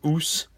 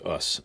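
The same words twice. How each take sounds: First: The vowel is held long. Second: The vowel is kept short. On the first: "those long U's are us" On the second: "the short U is us"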